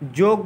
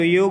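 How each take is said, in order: First: The word begins with a j sound. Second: The word begins with a y sound. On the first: The speaker calls it wrong. "जोग है" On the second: The speaker calls it right. "तो योग होता है"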